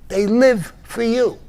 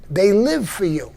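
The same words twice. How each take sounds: First: Slow, "live" leaned on hard and louder; stress on live. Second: Said in the usual way. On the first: Real, not acted. To listeners, slowly pressing the word "live". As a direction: repeat it slower, pressing "live".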